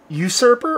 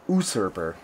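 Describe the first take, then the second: First: "usurper" opening with a YOO sound; y-glide pronunciation. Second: "usurper" opening with a bare OO sound; no y-glide. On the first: Reviewer unsure of the beer's name, offering "usurper" as yoo-SUR-per. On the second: Reviewer offering the other option for the beer's name, "usurper" as oo-SUR-per. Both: Shown as a demonstration. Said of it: "Is it usurper or usurper".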